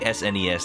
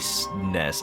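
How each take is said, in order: First: It is spelled out letter by letter. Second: It is said as a single word. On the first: The speaker calls it wrong. "It feels like a whole mouthful" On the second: The speaker calls it right. "I say S N E S"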